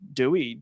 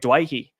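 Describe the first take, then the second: First: The name is said like the English 'Dewey'. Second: The name is said like 'Dwayhe'. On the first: This is the anglicized way the family uses. The speaker calls it wrong. "I call him Dewey" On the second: This is the culturally traditional way. The speaker calls it right. "Sorry, Dwayhe"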